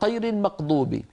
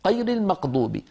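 The two takes are said the same way.

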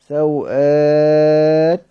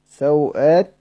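First: The vowel after the hamza is held medium. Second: The vowel after the hamza is held short.

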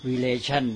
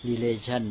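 The two takes are said the same way.

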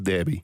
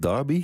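First: The word is said with a Dutch pronunciation. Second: The word is said with an English pronunciation. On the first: This sounds natural when speaking Dutch. "Ik zou zeggen derby" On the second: This is how English people say it. "de Engelsen zeggen derby"

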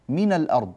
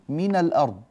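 No difference in how they are said.

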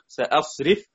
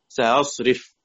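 First: The hamza is a full, clear glottal stop. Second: The hamza is softened, halfway toward a vowel. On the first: "بالتحقيق" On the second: "أو بتسهيل بين مفتوح قبلها مفتوح"

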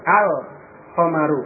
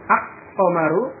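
First: The L is pronounced clearly before the consonant. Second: The L merges into the following consonant. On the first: The speaker calls it right. "Yang benar al-qamaru, lamnya tampak" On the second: The speaker calls it wrong. "kalau diucapkan dengan idgham menjadi al-qamaru, itu tidak benar"

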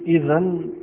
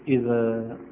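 First: The word ends with an n sound. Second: The word ends with a long a vowel. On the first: "نقف عليها بالنون" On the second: "نقف عليها بالألف"

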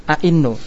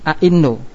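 No difference in how they are said.

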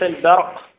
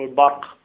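First: The b is heavy and emphatic. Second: The b is light, not emphatic. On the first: The speaker calls it wrong. "وليس البرق" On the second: The speaker calls it right. "نقول البرق با"

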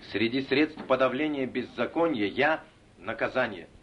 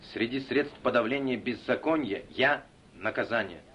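The two takes are said the same way.

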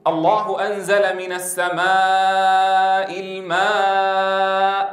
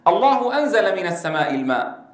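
First: The long vowels are stretched well beyond normal. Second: The long vowels have their normal length. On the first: This belongs only to Quranic recitation. "ولا يقول ... فتطويل زمن المد زيادة عن الطبيعي هذا خاص بالقرآن الكريم" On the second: This is how ordinary Arabic speech says it. "العربية يقول"

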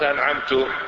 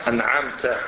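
First: The word ends with a 'tu' sound. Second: The word ends with a 'ta' sound. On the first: The speaker bestowed the favor. The speaker calls it wrong. "يعني أنعمت عليه أنا" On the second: The one addressed bestowed the favor. The speaker calls it right. "يعني أنعمت أنت عليه"

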